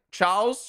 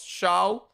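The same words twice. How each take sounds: First: Charles said as CHARLZ; hard ch and final z on Charles; English Charles. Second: Charles said as SHARL; French Charles. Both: Shown as a demonstration. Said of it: "Well, that's the thing".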